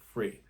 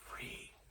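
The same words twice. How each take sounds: First: The word is said in full voice. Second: The word is whispered.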